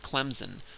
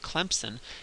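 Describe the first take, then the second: First: The s is voiced like a z. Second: A p sound is slipped in after the m. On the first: A northern way of saying it. "people from up north will pronounce it Clemson with a Z" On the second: A Southern way of saying it. "like a good Southerner ... you put a P in there"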